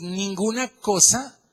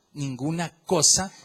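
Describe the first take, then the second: First: Ninguna cosa said slowly, with ninguna high and loud; emphatic. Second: Said in the usual way. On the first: Acted. Preacher telling the church nothing fills life, slow stressed ninguna. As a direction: lean hard on ninguna. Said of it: "repeated phrase, first pushed". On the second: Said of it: "repeat after emphasis".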